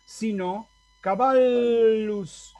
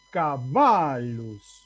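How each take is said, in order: First: Caballus slow, long held double ll as l-l; Latin double l. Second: Caballus very slow, stress on the long a. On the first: Latin teacher modelling caballus for the class. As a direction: stretch caballus, ll said as two l's. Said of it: "no voy a leer caballos o caballos". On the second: Teacher marking where the accent falls in caballus. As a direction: draw out caballus, leaning on the a. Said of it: "la A es larga... el acento cae ahí". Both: Shown as a demonstration.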